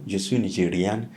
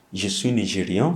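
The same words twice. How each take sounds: First: "Nigériane" with a clear final n sounded; feminine ending. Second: "Nigérian" ending in a nasal vowel, final n not sounded; masculine ending. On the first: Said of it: "for female". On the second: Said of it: "for male". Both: Shown as a demonstration.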